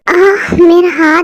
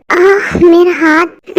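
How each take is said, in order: First: Slow aching moan, rising at the end; pained cry. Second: Slow pained moan over the hand; pained cry. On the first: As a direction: moan it as if the hand throbs. Hand hurts again. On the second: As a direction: drag it out like the wrist really hurts. Hand hurts, cries out. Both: Acted.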